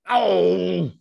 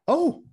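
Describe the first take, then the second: First: It is said in an upset way. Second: It is said in a surprised way.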